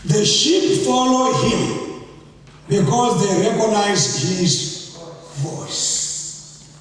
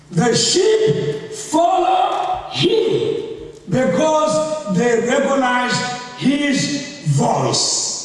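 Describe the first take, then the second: First: Said in the usual way. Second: Slow emphatic reread. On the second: Shown as a demonstration. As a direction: dwell on each word of the verse. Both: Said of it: "I will read verse".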